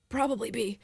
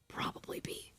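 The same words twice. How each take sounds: First: Said in the usual way. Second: Soft whispered aside. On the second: Shown as a demonstration. Whispering the answer to listeners before saying it aloud. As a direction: breathe the answer like a secret.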